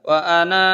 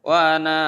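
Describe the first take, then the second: The two takes are said the same way.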